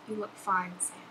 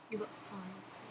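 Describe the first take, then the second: First: Rosie's line, first take. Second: Much softer, tender second read; a quiet, loving repeat of the line; Rosie's line, soft take. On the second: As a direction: let it drop to a hush, meaning I love you. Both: Pretend. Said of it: "please say one of Rosie's lines".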